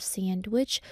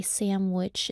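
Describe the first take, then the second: First: "sandwich" as "sand-wich", n and d both sounded. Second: "sandwich" with an m and no d; said as "samwich". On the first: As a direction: keep the d in "sandwich". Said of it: "instead of sandwich". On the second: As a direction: say "sandwich" like SAM-wich. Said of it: "more fulfilling to say". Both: Shown as a demonstration.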